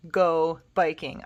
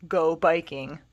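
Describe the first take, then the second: First: Slower, careful repeat for learners. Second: Said in the usual way. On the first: Shown as a demonstration. Teacher repeats the phrase slowly for students. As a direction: say it again slowly and clearly.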